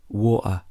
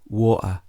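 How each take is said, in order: First: The middle T is a glottal stop. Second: The same.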